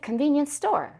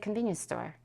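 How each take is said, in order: First: The stress falls on the word store. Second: The stress falls on the word convenience. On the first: The speaker calls it wrong. "we don't say" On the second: The speaker calls it right. "you don't stress the noun that was that was modified"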